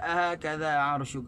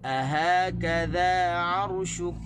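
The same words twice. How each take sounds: First: The first syllable 'a' is stressed. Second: The first syllable 'a' is unstressed; 'ha' and 'ka' are stressed. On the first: The speaker calls it wrong. "Kita tak boleh baca ahakadha arshuk" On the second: The speaker calls it right. "Di di a tu tak boleh tekan, tekan di ha dan tekan di kaf"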